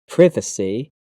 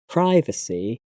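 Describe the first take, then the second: First: The first vowel is the British vowel. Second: The first vowel is the American vowel. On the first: "in British English has a I sound" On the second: "having an I sound in American English"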